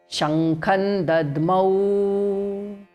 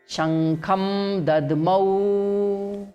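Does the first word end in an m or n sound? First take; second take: n sound; m sound. First: The first word ends with an n sound. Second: The first word ends with a clear m sound. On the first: The speaker calls it right. "There is no ma in between now" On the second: The speaker calls it wrong. "first one ma we will chant again"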